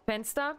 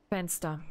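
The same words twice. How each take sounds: First: Fenster with a rising question tune; questioning window. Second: Fenster with a falling final tune; settled answer. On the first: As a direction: ask Fenster like a doubtful guess. Weighing the window option aloud. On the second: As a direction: state Fenster as the decision. Deciding on the window option. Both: Real, not acted.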